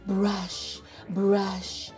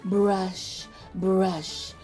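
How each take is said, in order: Both takes have the same delivery.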